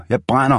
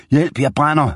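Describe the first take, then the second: First: High repeated pained cry; screaming in pain. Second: High, panicked cry for help; screaming in pain. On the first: Scalded gunman repeats his cry on the kitchen floor, pained high yell. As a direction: cry it again, still burning. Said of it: "råbte han". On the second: Scalded gunman screams for help after hot porridge, panicked high cry. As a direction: yelp it out like he's on fire. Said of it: "råbte og skreg". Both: A narrator's reading.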